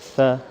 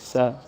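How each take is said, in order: First: The syllable begins with a th sound. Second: The syllable begins with a hissing s sound. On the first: The speaker calls it right. "it's the th of three, just like we say three. So tha" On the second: The speaker calls it wrong. "Many people pronounce or mispronounce this letter uh, with the S or the sin. They say sa, si, su, which is wrong"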